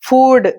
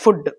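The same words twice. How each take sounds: First: The vowel is a long oo sound. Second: The vowel is a short oo sound. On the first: The speaker calls it right. "దాన్ని ఫుడ్ అని pronounce చేయాలి" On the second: The speaker calls it wrong. "Not ఫుడ్"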